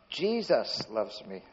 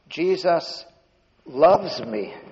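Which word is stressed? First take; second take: Jesus; loves. First: The stress falls on the word Jesus. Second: The stress falls on the word loves. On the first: It is this particular one who loves. "That's the one that was dead and" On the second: The feeling is real love, not mere knowledge. "He really loves me"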